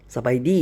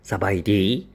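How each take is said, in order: First: The greeting is said with ordinary pronunciation. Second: The greeting is said with an odd, foreign pronunciation. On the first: "이것도 아니고" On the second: "발음이 좀 이상해 ... 뭐 이런 식으로"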